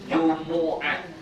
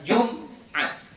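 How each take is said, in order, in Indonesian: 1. Vokal u mengikuti m sebelum konsonan. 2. Huruf m langsung bertemu konsonan berikutnya. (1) "mimnya baris depan" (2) "bacanya bukan Jum'at"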